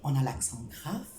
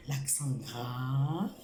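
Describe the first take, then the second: First: Said in the usual way. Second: Slow model word. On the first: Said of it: "teacher names accent grave". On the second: Shown as a demonstration. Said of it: "teacher repeats slowly".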